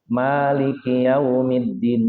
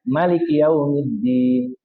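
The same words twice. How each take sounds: First: The first vowel, 'ma', is held long. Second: The first vowel, 'ma', is kept short. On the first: "mad tabi'i, ma dua harokat" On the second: "Ada yang dipendekkan"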